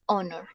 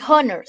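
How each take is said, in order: First: Honor said as the correct English word, silent h; right pronunciation of honor. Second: Honor said wrongly as /onoɾ/ with a Spanish r; wrong pronunciation of honor. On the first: Teacher modelling the correct honor for the class. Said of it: "se dice honor". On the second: Teacher showing students the wrong way to say honor. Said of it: "No se dice honor". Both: Shown as a demonstration.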